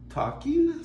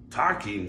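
First: High, questioning mermaid; light hopeful suggestion. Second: Said in the usual way. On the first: Acted. Mermaid proposing talking, high and questioning.

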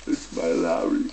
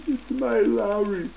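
First: "It's my Larry" much lower, ending with a rise. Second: "It's my Larry" much higher and slow; high silly voice. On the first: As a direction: drop into a low questioning voice. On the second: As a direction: squeak the line out slowly. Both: Acted. Same words high, then low.

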